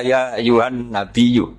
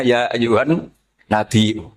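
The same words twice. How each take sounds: First: "Nabiyu" recited slowly with gliding y; softened hamzah. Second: "Nabiyu" recited slowly as nabi-'u; full hamzah. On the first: Teacher gives what Bani Tamim can't read, gliding Nabiyu. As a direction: run i into yu in "Nabiyu", no catch. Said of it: "Dia nggak bisa baca". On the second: Teacher gives what Bani Tamim can read, hamzah in Nabiyu. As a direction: glottal catch before the u of "Nabiyu". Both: Shown as a demonstration.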